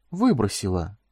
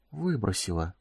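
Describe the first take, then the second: First: Said in the usual way. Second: Soft stunned whisper. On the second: A narrator's reading. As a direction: breathe it out in shock. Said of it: "прошептал он".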